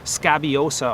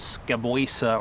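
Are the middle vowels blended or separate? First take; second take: separate; blended. First: Each middle vowel is pronounced separately. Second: The middle vowels are blended together. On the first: The speaker calls it right. "Try to pronounce them all" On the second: The speaker calls it wrong. "you try not to blend that into scaboisa"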